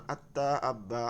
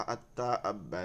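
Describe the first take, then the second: First: আত্তা আব্বা with the doubled t and b held long; doubled consonant. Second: আত্তা আব্বা again, each doubled consonant held and the phrase falling; doubled consonant, slower. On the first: Teacher to students, showing আত্তা আব্বা with held doubled consonants. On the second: Teacher repeating আত্তা আব্বা for students to copy. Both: Shown as a demonstration. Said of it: "দুইবার পড়িতে হয়".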